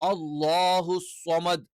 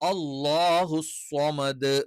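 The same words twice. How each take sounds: First: The final 'd' is cut off. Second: The final 'd' is clearly released. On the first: The speaker calls it wrong. "എന്ന് പറഞ്ഞ് നിർത്താൻ പാടില്ല" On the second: The speaker calls it right. "Correct ആയിട്ട് വ്യക്തമായിട്ട് ഉച്ചരിക്കണം"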